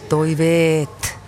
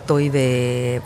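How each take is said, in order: First: The word ends with a clear final t. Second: The word ends without a final consonant. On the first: The speaker calls it right. "vaan toiveet" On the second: The speaker calls it wrong. "ei sanota toivee"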